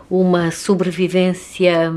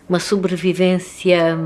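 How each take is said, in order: Both takes have the same delivery.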